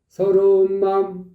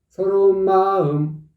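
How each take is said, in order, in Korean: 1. 높이가 확 뛰지 않고 그대로다. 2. 높이가 확 올라갔다가 내려온다. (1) "그냥 서러운 마음 같은 의미라고" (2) "올라가 버리잖아. 올라갔다. 들쑥 올라갔다 내려오잖아. 그건 아니라니까"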